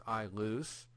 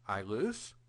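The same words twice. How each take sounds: First: Said in the usual way. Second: "I loose" as a question, rising on "loose"; question intonation. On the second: Shown as a demonstration. Greek teacher shows students the question mark, "I loose" said with question intonation. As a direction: turn "I loose" into a question with a rise on "loose". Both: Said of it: "when you throw in the question mark".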